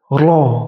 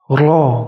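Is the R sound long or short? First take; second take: short; short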